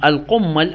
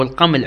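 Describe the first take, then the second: First: القمل as qummal, doubled m; with shadda. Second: القمل as qaml, single m; without shadda. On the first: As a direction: hold the m long in القمل, u after the q. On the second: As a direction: keep the m short in القمل, no doubling. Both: Shown as a demonstration. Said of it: "يقرأ بالتشديد أو بدون شدة".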